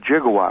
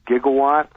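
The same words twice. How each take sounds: First: The word begins with a j sound. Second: The word begins with a hard g sound. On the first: This is how the engineer said it. "the guy we spoke to called it a gigawatt, which is also correct" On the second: This is the common pronunciation. "most people would pronounce it gigawatt"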